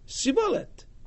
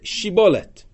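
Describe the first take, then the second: First: The word begins with an s sound. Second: The word begins with a sh sound. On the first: The speaker belongs to the tribe under suspicion. "their shin was pronounced as a sin" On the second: The speaker is not from the tribe under suspicion. "Say the word shibolet"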